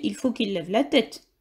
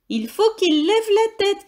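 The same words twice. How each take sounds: First: Said in the usual way. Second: Shouted order. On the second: Acted. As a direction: call it down so everyone hears. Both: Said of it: "crie Billy".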